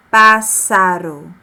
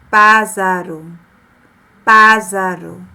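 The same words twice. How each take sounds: First: Pássaro said slowly and loudly with a hissing s; correct s sound. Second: Pássaro said loudly as "pázaro" with a buzzing z; wrong z sound. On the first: Teacher giving the right reading after the wrong one, sharp s. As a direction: hiss the ss in pássaro, no buzz. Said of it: "O nome é pássaro". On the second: Teacher showing the wrong single-S reading, buzzing z. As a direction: buzz the ss in pássaro like a z. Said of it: "Se eu colocar apenas um S". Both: Shown as a demonstration.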